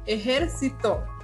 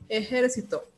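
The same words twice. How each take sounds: First: The stress is on the third syllable. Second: The stress is on the last syllable. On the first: "es una palabra grave porque su sílaba tónica es la penúltima" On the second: "es una palabra aguda porque su sílaba tónica es la última"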